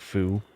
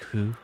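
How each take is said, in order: First: It begins with a clear English f sound. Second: It begins with a soft breathy h-like sound. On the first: The speaker calls it wrong. "it's pronounced like foo" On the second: The speaker calls it right. "What it's actually like who"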